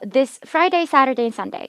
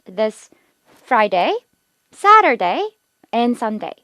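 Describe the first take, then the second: First: The days run together without clear pauses. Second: Each day is separated by a clear pause. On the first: The listener may not catch the information. The speaker calls it wrong. "이러면 정보 전달이 안 돼요" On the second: The information comes across clearly. The speaker calls it right. "꼭 끊어 읽으셔야 돼요"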